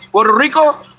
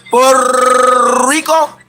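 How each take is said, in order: First: Said in the usual way. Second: "Puerto Rico" with slow, stretched rolled R's. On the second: Shown as a demonstration. Showing off his Spanish R's to a fan, slow rolled R's. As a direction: roll the R in "Rico", drawn out. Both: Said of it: "You know I roll the R's".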